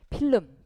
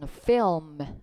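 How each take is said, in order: First: It is said as a Korean loanword. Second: It is said as an English word. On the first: The speaker calls it wrong. "우리말로 흔히 필름, 필름이라고 하지만" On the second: The speaker calls it right. "film, film 이렇게 읽어야 돼요"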